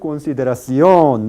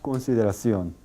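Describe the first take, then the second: First: The stressed syllable is noticeably lengthened. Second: All syllables are about equal in length. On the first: The speaker calls it wrong. "No se alarga mucho la sílaba tónica. No se dice consideración" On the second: The speaker calls it right. "sino consideración"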